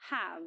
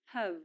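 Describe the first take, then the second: First: "have" with a full open "a" vowel; strong form of have. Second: "have" with a reduced schwa vowel; weak form of have. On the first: Teacher shows the verb alone, strong "have". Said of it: "it's pronounced in the strong form". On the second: Teacher shows the verb alone, weak "have". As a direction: say "have" like "huv". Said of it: "pronounced in weak form". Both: Shown as a demonstration.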